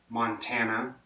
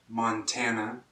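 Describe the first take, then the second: No difference in how they are said.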